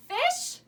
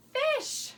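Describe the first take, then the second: First: "Fish" as a high, rising question; questioning echo. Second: "fish" high, then falling as the answer; triumphant reveal. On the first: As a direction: ask "Fish" as if echoing a guess. Echoes the child's guess as question. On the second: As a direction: announce "fish" as the right answer. Confirms the guess after suspense. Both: Pretend.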